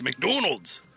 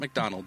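First: It is said in a put-on Scottish accent. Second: It is said in an ordinary American accent.

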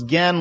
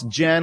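First: It begins with a hard G sound. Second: It begins with a J sound, as in generation. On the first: The speaker calls it wrong. "like the dude in Street Fighter" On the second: The speaker calls it right. "like generation"

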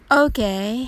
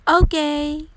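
First: It sounds lukewarm and unimpressed. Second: It sounds upbeat and fully approving. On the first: It is only so-so, not bad but not good. "彼はまあまあよという意味になります" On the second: It is perfectly fine. "ポジティブな意味でバッチリですという気持ちを込めて"

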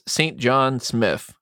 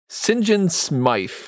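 First: The name is said in a plain, ordinary way. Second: The name is said imitating the character's pronunciation.

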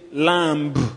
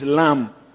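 First: A B sound is pronounced at the end. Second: No B sound is pronounced at the end. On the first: The speaker calls it wrong. "You don't say lamb" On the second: The speaker calls it right. "It is lamb"

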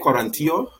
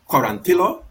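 First: The name is said with a Spanish pronunciation. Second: The name is said with an American pronunciation. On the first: This is how the name should really be said. The speaker calls it right. "They can't say Quarantillo" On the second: This is how Americans usually say the name. The speaker calls it wrong. "that's how they say the guy's name every time"

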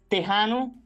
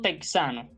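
First: The middle consonant is a harsh throaty h. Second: The middle consonant is k plus s. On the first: The speaker calls it right. "Así que diremos" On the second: The speaker calls it wrong.

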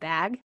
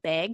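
First: It is said the California way. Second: It is said the Wyoming way.

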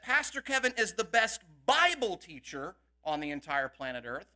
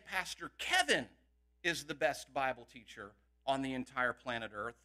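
First: The word Bible is stressed. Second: The word Kevin is stressed.

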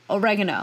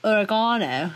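First: The word is said with an American accent. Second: The word is said with a British accent.

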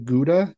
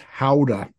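First: It begins with a hard g sound. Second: It begins with a soft, throaty breath sound. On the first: The speaker calls it wrong. "we say Gouda completely incorrectly" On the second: The speaker calls it right. "It's howdah. ... There might be a slight phlegm"

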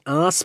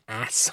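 First: The word is said in an Australian way. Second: The word is said in an American way. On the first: "I want to say ass, but it's spelled differently" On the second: "I can never say ass properly because I'm an Aussie"

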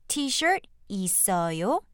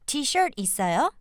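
First: The sentence is spoken slowly and deliberately. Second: The sentence is spoken at a natural, quicker pace.

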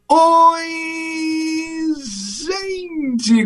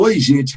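First: It is drawn out like a goal shout. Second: It is said short and quick.

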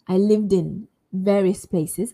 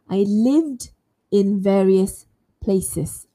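First: The words are said fast, with the 'd' of 'lived' carried onto 'in'. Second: The words are said slowly, with 'lived' and 'in' kept separate. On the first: "But if I say it quite fast" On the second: "if I say it very slowly, it would sound like this"

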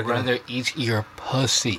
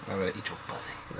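First: The phrase is said louder, with strong emphasis. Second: The phrase is said at a normal, quieter volume.

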